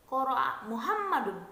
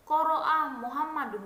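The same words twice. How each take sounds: First: Muhammadun lifted and louder, qara'a light; stress on Muhammadun. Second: Qara'a punched louder, Muhammadun lighter; stress on qara'a. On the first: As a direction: lean on Muhammadun. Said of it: "Menekankan pada fa'il". (tekanan pada kata Muhammadun) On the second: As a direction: hit the word qara'a. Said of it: "ditekankan pada kata qara'a". (tekanan pada kata qara'a) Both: Shown as a demonstration.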